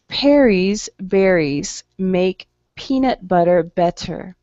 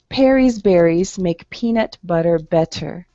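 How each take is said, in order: First: The sentence is said at a slow pace. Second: The sentence is said at a fast pace. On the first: "first practice at a slower speed" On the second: "one time faster"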